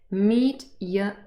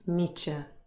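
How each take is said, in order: First: The t and y sounds stay separate. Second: The t and y merge into a ch sound. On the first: "meet Y becomes" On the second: "usually this changes to Ch"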